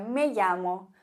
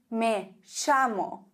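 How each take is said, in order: First: It is said with a Spanish accent. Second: It is said with an Argentine accent.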